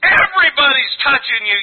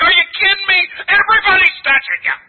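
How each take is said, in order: First: Said in the usual way. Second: Higher, louder, disbelieving; incredulous disciples. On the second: Retold or imitated. Preacher voicing disciples scoffing at Jesus, raised disbelief. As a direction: throw it back like it's obvious. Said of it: "the disciples are like".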